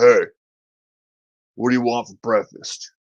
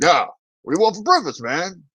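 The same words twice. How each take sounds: First: Lightly voiced big Australian dude; casually ask, imitating an Australian father; a hint of a big Aussie dad. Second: Higher, insistent repeat question; high-pitched, easygoing dad impression; big Australian dad. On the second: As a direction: imitate the Aussie dad brushing off confusion. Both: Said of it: "big Australian dude walks in and goes".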